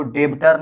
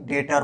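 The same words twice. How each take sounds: First: "डेब्टर" with the b sounded before t; wrong pronunciation. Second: "डेटर" with no b, de-tar; correct silent b. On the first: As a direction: pronounce the silent b in "डेब्टर", deb-tar. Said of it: "डेब्टर नहीं". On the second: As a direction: go straight from the vowel to t in "डेटर". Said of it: "डेटर बोला जाता है". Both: Shown as a demonstration.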